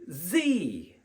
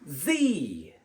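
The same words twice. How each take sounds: First: The letter is pronounced zee. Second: The letter is pronounced zee.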